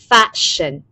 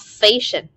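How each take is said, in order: First: The first vowel is open, between 'a' and 'e'. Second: The first vowel is a plain 'e' sound. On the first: The speaker calls it right. "we say fashion, ... âm e bẹt ... nửa a nửa e" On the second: The speaker calls it wrong. "not fashion ... các bạn vẫn có xu hướng đọc cái này thành âm e"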